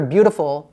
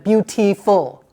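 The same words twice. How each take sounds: First: The word is said with reduced, natural sounds. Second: The word is said with every sound overly careful. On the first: The speaker calls it right. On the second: The speaker calls it wrong.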